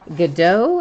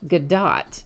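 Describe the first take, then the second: First: The final T is silent. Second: The final T is clearly pronounced. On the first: "with a silent T" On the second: "with a very hard pronounced T"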